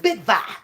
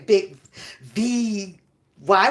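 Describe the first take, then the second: First: The second part is said as one word, Vibe. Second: The second part is said as letters V Y. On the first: The speaker calls it right. "It's Big Vibe" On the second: The speaker calls it wrong. "He doesn't say Big V Y"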